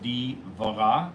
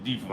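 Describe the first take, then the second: First: The word is said with three syllables. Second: The middle vowel is dropped, leaving two syllables.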